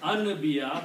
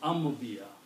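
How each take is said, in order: First: The consonant before the b is an n. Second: The consonant before the b is an m. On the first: The speaker calls it wrong. "He says anbiya" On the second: The speaker calls it right. "but you pronounce ambiya"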